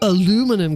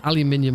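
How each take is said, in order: First: It is said with American pronunciation. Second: It is said with British pronunciation. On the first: An American presenter said it. The speaker calls it wrong. "because that's how I'm going to pronounce it" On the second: It is said as most people outside America say it. The speaker calls it right. "Say aluminium like the rest of us"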